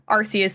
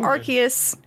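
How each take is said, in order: First: The name is said with a rude British word inside. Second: The name is said without a rude British word. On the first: The speaker calls it wrong. "Arceus apparently has a bad word in it for our British counterparts" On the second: The speaker calls it right. "I'll be saying Arceus from now on"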